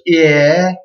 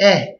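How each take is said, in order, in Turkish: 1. Ünlü kısa bir i kayması ile başlar. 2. Ünlü düz ve kısa kesilmiş. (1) "Büyüğünü okurken, söylerken yanına i ekliyoruz" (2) "Küçüğünü de direkt e diye kesip attırıyoruz"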